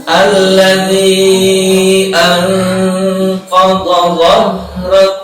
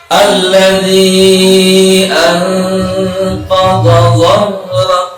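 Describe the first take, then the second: The two takes are said the same way.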